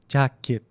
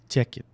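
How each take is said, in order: First: The first vowel is an open 'a' sound. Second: The first vowel is not an open 'a' sound. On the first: This is the older form borrowed through Japanese. "os japoneses tendem a pegar mais como a, né? E aí fica desse jeito" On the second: This is the current official form. "hoje a forma oficial é essa aqui"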